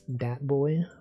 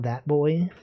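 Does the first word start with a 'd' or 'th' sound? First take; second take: d; th. First: The first word begins with a hard 'd' sound. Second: The first word begins with a soft 'th' sound. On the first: The speaker calls it right. "it's that boy" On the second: The speaker calls it wrong. "it's not that boy"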